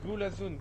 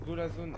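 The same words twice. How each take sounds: First: Said in the usual way. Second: Slowly stretched chant; slow drawn out. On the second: Shown as a demonstration. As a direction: drag the words out slowly.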